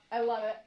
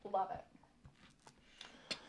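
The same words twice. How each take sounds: First: Said in the usual way. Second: Breathy whispered aside; whispering. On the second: Real, not acted. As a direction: whisper it to yourself. Quiet whispered aside after disclaimer.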